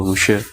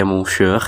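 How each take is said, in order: First: "monsieur" said "muh-syuh", short first vowel, silent r; "monsieur" without the n or r sound; actual French pronunciation. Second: "monsieur" read as spelt, long first syllable and final r; "monsieur" with a drawn-out first vowel and sounded r. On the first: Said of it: "dibacanya gitu". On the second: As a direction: say "monsieur" letter by letter, "mon-syeur". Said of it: "itu seharusnya dibaca". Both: Shown as a demonstration.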